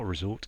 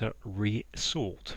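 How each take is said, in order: First: It is said as the ordinary word resort. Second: It is said as re-sort, sort again. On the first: A holiday place. The speaker calls it wrong. "Resort is not a resort" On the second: To sort again. The speaker calls it right. "it's a resort. Resort is you know, telling you it's an anagram indicator"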